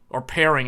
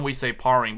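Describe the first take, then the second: First: The first vowel sounds like 'air'. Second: The first vowel sounds like 'ar'. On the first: This is the standard pronunciation. "that's probably the, the correct way to pronounce it" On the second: This is how people say it where the speaker is from. "where I'm from, we say parring"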